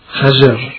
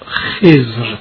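First: It is two syllables with a and e vowels. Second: It is one syllable with a short e vowel. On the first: Some verses need this form for the metre. "بر وزن خشن" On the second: This is the widely known, usual pronunciation. "برخی این کلمه را خضر تلفظ می کند، مشهور هم همین است"

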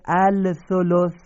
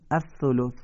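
First: The L sound is pronounced before the next consonant. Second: The L merges into a doubled next consonant. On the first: This is how the word is spelled. "نزد سه نقطه سا نوشته الثلث" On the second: This is how the word is actually read. "میخونیم الثلث"

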